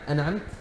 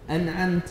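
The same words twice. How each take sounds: First: The nun is not clearly pronounced. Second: The vowel after the ta is drawn out long. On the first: "عدم ظهور النون الساكنة" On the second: "مد الفتح على التاء حتى يخيل للمستمع أن بعد التاء ألفا"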